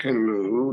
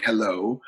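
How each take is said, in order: First: Put-on twisted-mouth "hello" in a strained Canadian accent; dad faking Canadian. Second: Said in the usual way. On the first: Jamaican dad trying to sound Canadian for the guest, mock Canadian accent. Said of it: "he's got his mouth all twisted". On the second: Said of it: "not use it in such an accent".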